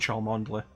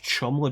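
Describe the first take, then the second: First: The name is said with four syllables. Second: The name is said in two short syllables. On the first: The speaker calls it wrong. "pronouncing it as it's written" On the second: The speaker calls it right. "it's pronounced Chumley"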